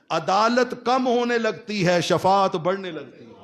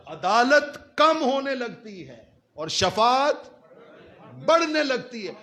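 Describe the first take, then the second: First: Impassioned preaching. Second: High, stretched words with a long suspenseful pause. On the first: Preacher telling how Judgement Day turns, impassioned proclamation. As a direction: proclaim the turning point in one go. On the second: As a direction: draw it out and climb before the last phrase. Preacher repeats it for dramatic effect. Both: Real, not acted.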